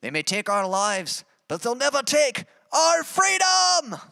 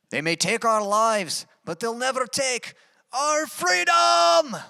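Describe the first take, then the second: First: Slow, high Scottish war cry, shouted at the end; hammed-up Braveheart speech in Scottish accent; Scottish accent rising to a shout. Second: High, slow Scottish battle cry building to a shout; rally the troops in a hammed-up Scottish accent; Scottish accent, shouted slowly. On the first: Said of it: "I'll say that quote one more time". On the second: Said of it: "Tried to do my best accent".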